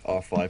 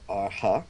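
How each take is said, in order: First: The name is said as 'R five'. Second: The name is said as 'Arha'. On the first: The five is read as the English number. "or if we should just stay with R five" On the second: The five is read as the Thai 'ha'. "if his name is pronounced Arha"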